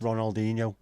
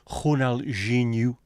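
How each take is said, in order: First: The name is said with English sounds. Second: The name is said with Brazilian Portuguese sounds. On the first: The speaker calls it wrong. "is not pronounced" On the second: The speaker calls it right. "It is"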